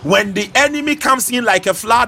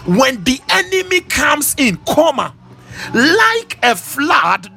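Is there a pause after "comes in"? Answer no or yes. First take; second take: no; yes. First: It runs on without a break after "comes in." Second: There is a break after "comes in."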